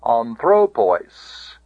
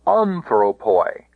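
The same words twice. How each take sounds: First: "Anthropois" as an-THRO-POIS; stress on penult. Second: "Anthropoi" as AN-thro-poi; stress on antepenult. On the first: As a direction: hit the THRO of "Anthropois", long final pois. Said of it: "no further than the penult". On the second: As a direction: hit the first syllable of "Anthropoi", keep poi short. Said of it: "antepenult now". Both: Shown as a demonstration.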